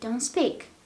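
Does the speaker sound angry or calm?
calm. The voice sounds calm and gentle. The speaker is not annoyed. "or you are not angry"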